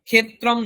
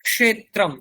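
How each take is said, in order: First: The first consonant is a plain aspirated 'kh'. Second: The first consonant is a 'k' followed by 'sh'. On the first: The speaker calls it wrong. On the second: The speaker calls it right.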